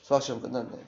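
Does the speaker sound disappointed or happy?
disappointed. The voice sounds flat and let down. The test went badly. "다운이 실망하죠"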